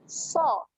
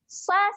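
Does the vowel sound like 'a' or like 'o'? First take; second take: o; a. First: The vowel sounds like a rounded 'o'. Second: The vowel sounds like an open 'a'. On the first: The speaker calls it right. "kita bunyikan dengan so" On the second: The speaker calls it wrong. "kalau kita bunyi huruf A dia bunyi sa. Sa salah"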